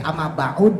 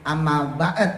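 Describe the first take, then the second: First: A u vowel sits between the ain and d. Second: The ain runs straight into d, no vowel. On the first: The speaker calls it right. "amma ba'ud boleh" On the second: The speaker calls it wrong. "jangan amma ba'd"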